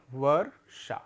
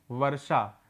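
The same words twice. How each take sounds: First: वर्षा said slowly with the र clearly rolled before षा; careful pronunciation demo. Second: Said in the usual way. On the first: Shown as a demonstration. Teacher modelling वर्षा for pupils, with the र sounded clearly. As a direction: sound out वर्षा for the class, the र sitting on षा. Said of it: "इसका जो उच्चारण होगा वो कैसे होगा?". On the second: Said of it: "सबको मिलाने पे कौन सा शब्द बना?".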